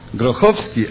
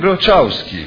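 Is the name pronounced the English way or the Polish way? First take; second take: Polish; English. First: The name is pronounced the Polish way. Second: The name is pronounced the English way. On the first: This is the form used by someone born in Poland. "you are Grochowski" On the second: This is the form used by someone born in America. "I am Grochowski"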